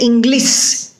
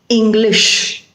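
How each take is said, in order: First: The word ends with an s sound. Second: The word ends with an sh sound. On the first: The speaker calls it wrong. "you don't say English" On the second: The speaker calls it right. "you have to say English"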